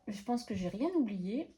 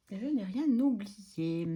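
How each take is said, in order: First: Said in the usual way. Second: Each word of "Je n'ai rien oublié" said slowly and evenly; lentement, en détachant « Je n'ai rien oublié »; slow, deliberate repeat. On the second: Shown as a demonstration.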